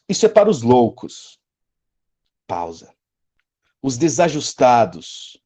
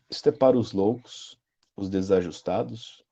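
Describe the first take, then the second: First: A long pause separates the phrases. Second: The phrases run on without a long pause. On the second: "Você pode ler assim, e muita gente lê assim"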